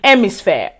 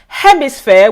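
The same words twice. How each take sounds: First: It starts with a vowel, no h sound. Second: It starts with an h sound.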